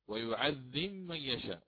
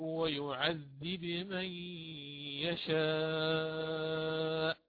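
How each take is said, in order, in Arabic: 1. الـ b تدغم في الـ m التي بعدها. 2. الـ b تبقى واضحة مع ارتداد خفيف عند الخروج. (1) "الإمام قالون يقرأها مثلا بالإدغام" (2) "يقرأها كما قلنا بالقلقلة"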